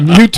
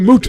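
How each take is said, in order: First: The vowel is pronounced 'yoo', like 'mute'. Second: The vowel is pronounced 'oo', like 'moot'. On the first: The speaker calls it wrong. "that's a mute point. Yes, no, it's not" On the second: The speaker calls it right. "It's a moot point"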